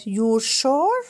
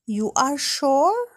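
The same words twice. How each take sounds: First: "you're" as one syllable, slow rise on "sure"; short "you're", then a drawn-out "sure"; contracted form. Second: Slow "You are", two separate words, rising on "sure"; uncontracted "You are", lifting up on "sure"; full form. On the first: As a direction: merge you and are into "you're". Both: Shown as a demonstration. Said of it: "بالصيغة المختصرة".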